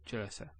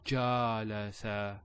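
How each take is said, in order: First: The vowels are said quick and short. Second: The vowels are drawn out long. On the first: The speaker calls it right. "There's no elongation" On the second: The speaker calls it wrong. "not jalasa or ja la sa"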